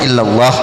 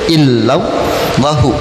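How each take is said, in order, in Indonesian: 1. Kata ini berhenti di h, tanpa vokal. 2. Kata ini berakhir dengan vokal u pendek. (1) "Kalau di wakaf, wakaf aja" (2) "illallahu boleh"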